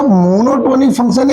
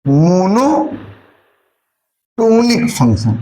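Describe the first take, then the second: First: Said in the usual way. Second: Slow, deliberate मोनोटोनिक ... फंक्शन with a long pause; new term spelled out slowly. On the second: Shown as a demonstration. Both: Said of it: "एक और word आता है मोनोटोनिक".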